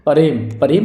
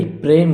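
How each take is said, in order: First: प्रेम split as "pa-rem"; mistaken extra vowel. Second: प्रेम as one syllable, "prem"; correct consonant cluster. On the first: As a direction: slip a vowel between p and r in प्रेम. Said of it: "कुछ नहीं होता भाई". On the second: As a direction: join p and r tightly in प्रेम. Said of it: "प्रेम होता है". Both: Shown as a demonstration.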